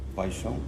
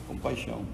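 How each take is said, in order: Both takes have the same delivery.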